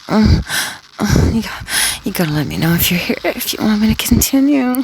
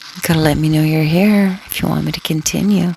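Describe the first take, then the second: First: It is said in a soft, breathy voice. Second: It is said in a plain, normal voice.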